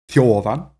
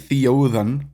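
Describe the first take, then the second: First: The two vowels glide together into one syllable. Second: The two vowels are split into separate syllables. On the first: The speaker calls it right. "two vowels, which just makes up a single nucleus" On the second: The speaker calls it wrong. "I'm not saying Theodan"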